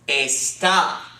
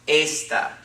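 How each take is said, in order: First: The stress is on the last syllable. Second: The stress is on the first syllable. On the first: It means is or are. "it has an accent mark on the A. The accent mark overrides the normal rules of accenting" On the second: It means this. "the accent comes on the second to last syllable"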